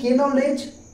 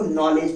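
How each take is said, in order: First: The word starts with a pronounced k sound. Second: The word starts with an n sound, no k. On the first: The speaker calls it wrong. "के नॉलेज नहीं पढ़ने का" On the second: The speaker calls it right. "N से पहले के क्या होता है? साइलेंट होता है। तो इसको नॉलेज पढ़ते हैं।"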